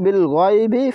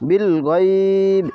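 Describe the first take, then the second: First: The word ends with a short i vowel. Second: The word ends on a bare consonant. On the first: The recitation continues without stopping here. "আমরা যদি এখানে ওয়াকফা না করি তাহলে বিল গয়বি ফাবাশশিরহু" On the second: The recitation stops here. "আর যদি ওয়াকফা করি এখানে বিল গয়ব এভাবে বলা যাবে"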